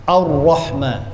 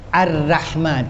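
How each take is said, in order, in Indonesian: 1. Bunyi r-nya tebal. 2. Bunyi r-nya tipis. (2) "tak boleh"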